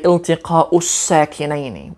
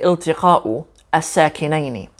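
First: The u links straight into the l. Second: The 'a' of 'as' is pronounced separately. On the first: The speaker calls it right. "We bring that u sound through the l" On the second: The speaker calls it wrong. "we don't say"

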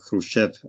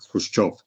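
First: The name is said with an English pronunciation. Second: The name is said with a Russian pronunciation. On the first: "the standard English transliteration or the way of writing it is Khrushchev" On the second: "in Russian, it should be pronounced Khrushchev"

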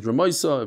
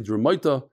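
First: It is said with an Ashkenazi s sound. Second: It is said with a Babylonian t sound.

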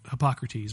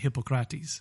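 First: It is said the usual English way. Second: It is said the Greek way. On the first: This is how English speakers usually say it. The speaker calls it wrong. "We would say" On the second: This is how Greek speakers say it. The speaker calls it right. "but they say"

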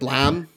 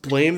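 First: The vowel rhymes with 'ham'. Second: The vowel rhymes with 'game'. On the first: The speaker calls it right. "It's probably pronounced like Blam" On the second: The speaker calls it wrong. "I don't think it's pronounced Blame"

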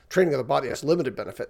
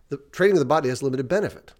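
First: The stress falls on the word limited. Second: The stress falls on the word benefit. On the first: Bodily training is of little use. The speaker calls it wrong. "I've heard people use that as" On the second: Bodily training does have real value. The speaker calls it right. "emphasize the right word"

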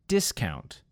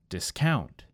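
First: The stress is on the first syllable. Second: The stress is on the second syllable. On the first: It is a noun. "In the first word, it was on the first syllable" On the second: It is a verb. "in the second word, I moved the emphasis to the second syllable"

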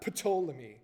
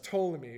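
First: The word begins with an audible P sound. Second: The word begins with a T sound, P silent. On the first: The speaker calls it wrong. "It's not Ptolemy" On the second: The speaker calls it right. "I'm guessing the P is silent"

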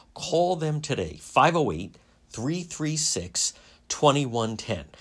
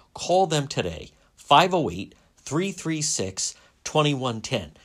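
Both takes have the same delivery.

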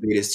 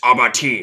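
First: The word is pronounced the English way. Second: The word is pronounced the French way. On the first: The speaker calls it wrong. "I used to call it abatis too" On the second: The speaker calls it right. "the French pronunciation"

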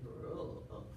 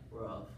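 First: It is barked like a Latino dog, rolled r. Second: It is barked like a suburban dog.

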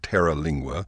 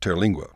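First: The name begins with two syllables, terra. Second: The name begins with one syllable, ter. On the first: The speaker calls it wrong. "It's not Terra Lingua" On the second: The speaker calls it right. "just Terlingua"

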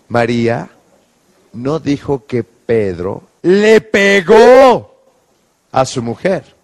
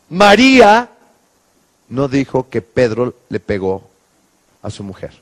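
First: The stress is on le pegó. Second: The stress is on María.

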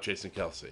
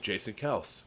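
First: The surname is said as two syllables. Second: The surname is said as one syllable. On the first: The speaker calls it wrong. "It's not Jason Kelsey" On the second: The speaker calls it right. "apparently it's Jason Kels"

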